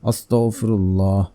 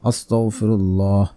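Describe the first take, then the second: First: The word is articulated fully and carefully. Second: The word is articulated fully and carefully.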